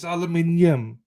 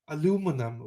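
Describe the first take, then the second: First: Five syllables, with the stress on the third. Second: Four syllables, with the stress on the second. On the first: The speaker calls it right. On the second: The speaker calls it wrong.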